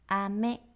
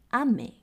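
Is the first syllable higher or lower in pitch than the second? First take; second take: lower; higher. First: The first syllable is lower than the second. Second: The first syllable is higher than the second. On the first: It means candy. "糖果，好像妹妹的妹" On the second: It means rain. "那如果第一个音发重一点，就会变成下雨咯。"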